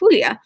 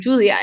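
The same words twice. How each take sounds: First: The name is said with a Spanish-style pronunciation. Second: The name is said with an English-style pronunciation. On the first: Her name keeps its original form. The speaker calls it right. "how to pronounce her name as Julia" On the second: Her name is anglicized by others. The speaker calls it wrong. "the American version of Julia"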